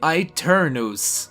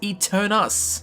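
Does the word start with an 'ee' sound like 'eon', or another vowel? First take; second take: another vowel; ee sound. First: The first vowel does not sound like 'eon'. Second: The first vowel sounds like 'ee' in 'eon'. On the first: The speaker calls it right. "pronounced really strangely" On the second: The speaker calls it wrong. "I personally would have pronounced it Eternus, with the A E being like Eon"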